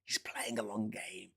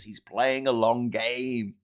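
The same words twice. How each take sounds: First: Hushed conspiratorial whisper of the slogan. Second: Said in the usual way. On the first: Shown as a demonstration. Mocking the loyalists' slogan, in a whisper. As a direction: whisper it like a secret.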